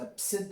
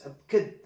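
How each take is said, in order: First: The middle consonant is an s sound. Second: The middle consonant is a k sound. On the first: "if you pronounce the C like a C" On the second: "or like a K"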